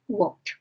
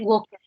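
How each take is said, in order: First: The ending sounds like a T. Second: The ending does not sound like a T. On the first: The speaker calls it right. "se dice walked. With T" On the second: The speaker calls it wrong. "Sería incorrecto que dijéramos"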